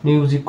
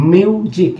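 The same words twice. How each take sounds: First: Said in the usual way. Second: মিউজিক with a drawn-out "myu"; shown pronunciation. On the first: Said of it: "এগুলো শব্দ তো পরিচিতই". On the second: Shown as a demonstration. Teacher showing consonant plus u rule, demonstrated pronunciation. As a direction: lengthen the "yu" glide in মিউজিক. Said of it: "এভাবে উচ্চারিত হয়ে থাকে".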